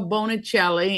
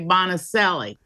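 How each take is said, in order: First: The name has an Italian pronunciation. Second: The name has an Americanized pronunciation.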